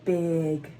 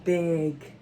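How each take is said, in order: The two takes are said the same way.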